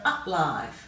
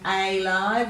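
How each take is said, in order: First: The first vowel is a short 'uh' sound. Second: The first vowel is a long 'ay' sound. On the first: "we give it a bit of a grunt sound" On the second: "we would give that a long A sound"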